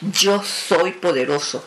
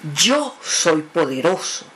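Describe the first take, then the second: First: It is rattled off mechanically like a parrot. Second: It is said with felt conviction and strength.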